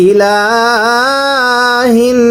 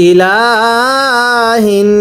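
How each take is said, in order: No difference in how they are said.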